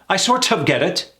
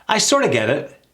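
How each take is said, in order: First: The T is clearly and strongly pronounced. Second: The T is softened and the phrase runs quickly. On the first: The speaker calls it wrong. "That T is throwing a lot of my clients off" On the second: The speaker calls it right. "Hear that?"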